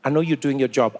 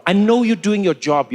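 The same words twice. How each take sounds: First: Said in the usual way. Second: Insistent repeat, louder; "know" pushed up and louder; stress on know. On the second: Retold or imitated. Pressing the officer, louder insistent stress. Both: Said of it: "I said".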